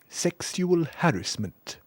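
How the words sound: It is said in a posh English accent.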